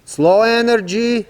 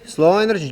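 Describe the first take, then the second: First: Slow energy. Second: Said in the usual way. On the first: Shown as a demonstration. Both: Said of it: "First of all".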